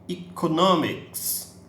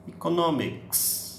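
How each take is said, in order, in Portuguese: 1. A primeira vogal soa como 'ee'. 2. A primeira vogal soa como 'ee'.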